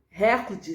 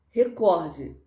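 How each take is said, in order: First: "recorde" stressed on the first syllable, RÉ; RÉ-cor-de, front-stressed "recorde"; wrong stress. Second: "Recorde" stressed on COR; re-COR-de, weight on the middle of "Recorde"; correct stress. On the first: Teacher showing the error, first-syllable stress on "recorde". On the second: Teacher giving the right form, middle-syllable stress on "Recorde". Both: Shown as a demonstration. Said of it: "está errado".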